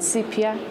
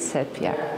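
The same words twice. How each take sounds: First: The word has an ordinary English pronunciation. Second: The word has a Latin-style pronunciation. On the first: The speaker calls it wrong. "not sepia" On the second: The speaker calls it right. "I prefer the Latin pronunciation of that word"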